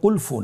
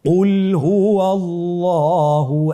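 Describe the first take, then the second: First: An f sound follows qul instead. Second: A clear h sound follows qul. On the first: The speaker calls it wrong. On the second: The speaker calls it right.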